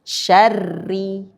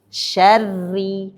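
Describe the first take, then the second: No difference in how they are said.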